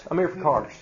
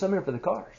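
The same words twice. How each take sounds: First: Put-on Tennessee accent. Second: Said in the usual way. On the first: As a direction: say it with a Southern Tennessee twang. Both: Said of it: "I just went into my Tennessee accent".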